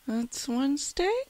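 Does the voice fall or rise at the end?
rise. The voice rises at the end, sounding unsure. The speaker is not sure it is Wednesday. "there's a kind of like an upturn at the voice at the end"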